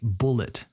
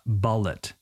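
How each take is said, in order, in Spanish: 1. La primera vocal coincide con la vocal de 'bull'. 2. La primera vocal es diferente a la vocal de 'bull'. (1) "We say bullet, ... It's like the animal, bull ... same vowel sound" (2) "not bullet. I've heard this too many times from students"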